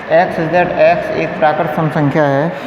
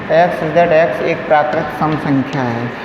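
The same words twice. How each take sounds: The two takes are said the same way.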